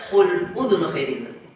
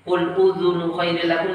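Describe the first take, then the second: First: The vowel in udhunu is cut short. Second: The vowel in udhunu is given full length. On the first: The speaker calls it wrong. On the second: The speaker calls it right.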